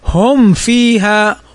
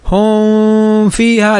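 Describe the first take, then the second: First: The meem is pronounced clearly before the faa. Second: The meem is hidden and blended into the faa. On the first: The speaker calls it right. "وإنما هم فيها ... والفاء من حروف الإظهار" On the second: The speaker calls it wrong. "فبعضهم قد يقرأ هكذا هم فيها، لا هذا خطأ"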